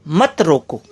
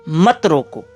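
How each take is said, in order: Both takes have the same delivery.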